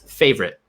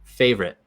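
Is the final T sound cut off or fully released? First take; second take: cut off; cut off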